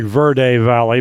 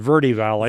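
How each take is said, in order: First: Verde ends in a vowel other than 'ee'. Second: Verde ends in an 'ee' sound. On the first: This is how the spelling suggests it. "it sounds like Verde Valley" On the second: This is how locals say it. "the people here call it Verde Valley. As if it's a V E R D I"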